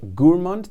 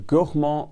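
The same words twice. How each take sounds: First: It is said with a British English pronunciation. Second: It is said with a French pronunciation. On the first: "that's the British English equivalent" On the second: "the native French pronunciation"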